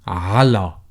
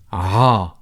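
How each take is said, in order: First: The whole word is said with both syllables. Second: Only the first sound of the word is said. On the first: "fully pronouncing this preposition" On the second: "shorten it and pronounce the first sound or letter only"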